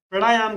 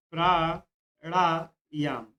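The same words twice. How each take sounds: First: Said in the usual way. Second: pranayama drawn out very slowly, syllable by syllable; teacher dictating pranayama slowly to students; slow spelled-out demo. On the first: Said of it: "प्राणायाम गलत होता है". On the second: Shown as a demonstration. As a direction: stretch pranayama out for the class to copy. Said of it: "ये बात ध्यान रखिएगा".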